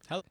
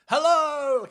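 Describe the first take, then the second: First: It is said subdued, with low energy. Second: It is said big and bombastic.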